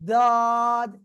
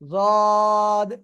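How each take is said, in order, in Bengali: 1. প্রথম ধ্বনিটি একটি সাধারণ d ধ্বনি। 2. প্রথম ধ্বনিটি এমফ্যাটিক, জিভের দুই পাশ মাড়ির দাঁতে লেগে থাকে। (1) "এরকম যেন উচ্চারণ না হয়" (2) "ওই অবস্থায় আমরা উচ্চারণ করব।"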